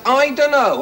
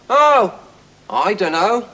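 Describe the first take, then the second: First: Said in the usual way. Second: An unbothered "I dunno" that drifts up at the end; bored voice. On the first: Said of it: "the house has". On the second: A narrator's reading. Husband answers wife's naming question, bored and offhand. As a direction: say "I dunno" like you couldn't care less. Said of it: "said the husband in a bored voice".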